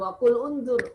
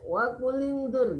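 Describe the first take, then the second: First: The glottal stop before unzur is pronounced separately. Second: The words run together without a glottal stop. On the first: The speaker calls it wrong. "Bukan wakul unzur" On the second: The speaker calls it right. "Wakulinzur kalau disambung"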